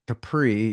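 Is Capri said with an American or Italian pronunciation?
American. It is said with an American pronunciation. The speaker calls it wrong. "you're not going to Capri"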